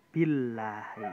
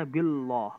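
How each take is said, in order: First: Billahi with a light, thin lam; thin tarqiq lam. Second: Billah said with a thick, heavy lam, the wrong way. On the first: Teacher modelling the correct thin lam for students. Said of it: "maka dibacanya billahi". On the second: Teacher showing students the forbidden heavy reading. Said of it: "Nggak boleh dibaca billah". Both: Shown as a demonstration.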